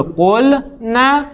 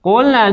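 First: قل نه drawn out slowly with a break between قل and نه, pitch lifted; slow, split word. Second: Said in the usual way. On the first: Shown as a demonstration. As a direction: spell out قل نه syllable by syllable, very slowly, for students to copy. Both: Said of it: "لذا قلنه رو بگو".

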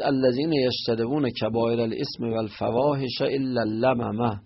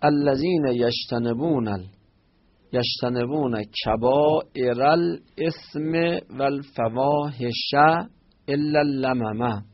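First: Recited in a chanting reading voice; verse recited from the Quran; Quran recitation. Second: Slowly, word by word, spelling out the verse; teacher repeating the verse slowly for the class; slow teaching repeat. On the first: Acted. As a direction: intone the verse like scripture. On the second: Shown as a demonstration. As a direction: drag each word out so students can follow. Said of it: "slow repeat for students".

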